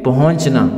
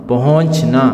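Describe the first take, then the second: No difference in how they are said.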